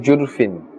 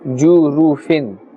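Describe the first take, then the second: First: The vowel after the r is dropped. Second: The vowel after the r is short and clear. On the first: The speaker calls it wrong. "Be careful not to say jurfin" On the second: The speaker calls it right. "the sound must be made clear and understandable"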